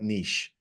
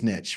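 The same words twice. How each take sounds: First: The word is said in a fancy pronunciation. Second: The word is said in a plain regional pronunciation. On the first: This is how other people say it. "I don't say words like niche" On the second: This is how the speaker says it himself. "So it is niche for me anyway"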